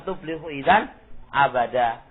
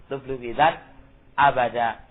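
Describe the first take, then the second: The two takes are said the same way.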